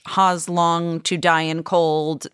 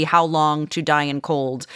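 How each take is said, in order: First: "How's" said as "hoz", slowly; "How's" pronounced "hahz" in place of "how"; typo read literally. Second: Said in the usual way. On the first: Shown as a demonstration. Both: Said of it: "that was meant to be".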